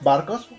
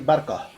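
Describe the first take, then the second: First: Standard Spanish, the final s is pronounced. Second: Andalusian accent, s dropped, final vowel open.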